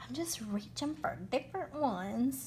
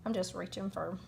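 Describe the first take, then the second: First: Slipping into a Southern accent. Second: Said in the usual way. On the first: Real, not acted. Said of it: "excuse my southern accent coming out there". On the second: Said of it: "excuse my southern accent".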